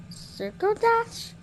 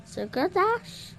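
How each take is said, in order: Both takes have the same delivery.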